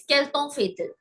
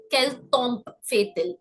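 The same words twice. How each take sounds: First: Quel temps fait-il, temps as a nasal tɑ̃; correct temps. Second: Quel tombe fait-il with the wrong tombe. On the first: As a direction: say temps with a silent p. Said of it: "It's quel temps fait-il". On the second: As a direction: say tombe in place of temps. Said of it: "so it's never". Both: Shown as a demonstration.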